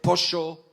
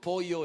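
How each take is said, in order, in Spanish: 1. Se dice con acento argentino. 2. Se dice con acento peruano. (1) "en lugar de pollo" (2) "Digo pollo"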